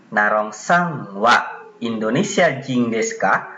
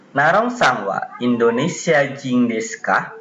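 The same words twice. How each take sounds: First: Slowed, phrase by phrase for learners; slow model reading. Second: Said in the usual way. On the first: Shown as a demonstration. Teacher repeating the second pattern's example for students, slowly. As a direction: say it slowly, separating "Narong sang wa" from the rest.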